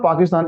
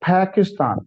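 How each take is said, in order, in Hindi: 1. p और t में हवा की फूंक नहीं होती। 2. p और t में हवा की फूंक होती है। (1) "so it's not पाकिस्तान" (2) "it's पाकिस्तान"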